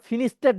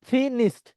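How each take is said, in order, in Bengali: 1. শেষের ধ্বনিটি বাতাসের ফুঁ ছাড়া উচ্চারণ করা হয়। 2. শেষের ধ্বনিটি বাতাসের ফুঁ দিয়ে উচ্চারণ করা হয়। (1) "ফিনিশড বলা যাবে না" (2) "আপনার মুখ দিয়ে একটা বাতাস বেরোবে"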